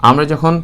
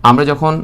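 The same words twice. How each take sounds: No difference in how they are said.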